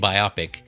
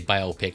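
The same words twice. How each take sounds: First: The word ends like the word microscopic. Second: The word does not end like microscopic. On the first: The speaker calls it right. "I like saying biopic" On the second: The speaker calls it wrong. "I know some people say biopic. It just doesn't sound as good"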